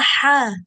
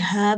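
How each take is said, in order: First: The h is a harsh, throaty sound. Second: The h is a plain, light breath. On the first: The speaker calls it wrong. "kamu bilangnya ha" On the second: The speaker calls it right. "setiap kali ha biasa"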